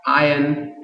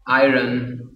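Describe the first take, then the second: First: "Iron" with the r left silent; British-style "Iron", r dropped; British pronunciation of iron. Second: "iron" with the r sounded; American-style "iron" with an audible r; American pronunciation of iron. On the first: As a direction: say "Iron" as eye-un, no r. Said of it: "in British English". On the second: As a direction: say "iron" as eye-run, r voiced. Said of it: "in American English". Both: Shown as a demonstration.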